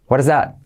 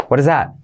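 Both takes have the same delivery.

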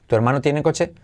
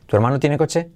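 Both takes have the same delivery.

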